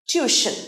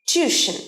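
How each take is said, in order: No difference in how they are said.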